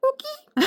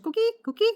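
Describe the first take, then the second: First: Very high chirpy frog call; coqui frog call. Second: Very high frog chirps; coqui frog call. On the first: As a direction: chirp it like a tiny tree frog. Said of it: "Okay, higher pitch". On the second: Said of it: "imagine a super duper high pitch". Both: Shown as a demonstration.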